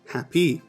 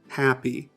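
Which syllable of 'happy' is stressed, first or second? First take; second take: second; first. First: The stress is on the second syllable. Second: The stress is on the first syllable. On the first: The speaker calls it wrong. "the second syllable is clearer and emphasized" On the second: The speaker calls it right. "The first way of saying it, happy, that is correct because the first syllable should be stressed"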